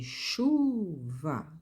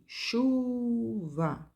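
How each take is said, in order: First: "chuva" with a louder, held "chu" and a light "va"; stress on CHU. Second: "chuva" with a high, louder "chu"; stress on CHU. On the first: Teacher showing students the strong syllable, stressing CHU. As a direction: hit "chu" in "chuva", let "va" fall away. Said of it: "Quem é mais forte da palavra chuva é o chu". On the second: Teacher repeating the example word, stressing CHU high. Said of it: "sempre mais forte o acento forte". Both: Shown as a demonstration.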